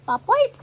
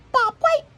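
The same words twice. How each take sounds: First: Very high, loud rising call; bobwhite call. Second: Very high, loud whistle-like call; bobwhite call. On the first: Narrator repeats the bobwhite call, high and loud. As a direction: whistle it out like a bobwhite. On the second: Narrator calls like a bobwhite, high and loud. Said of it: "The bobwhite calls". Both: Retold or imitated.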